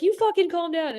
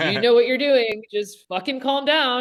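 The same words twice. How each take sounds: First: Very high-pitched, exasperated comeback; mock-mad retort. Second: Higher, emphatic retold reassurance; friend insisting calm. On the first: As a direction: throw it back in a squeaky mock huff. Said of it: "And I was getting mad". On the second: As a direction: imitate a friend urging you to settle down. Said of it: "he was just like".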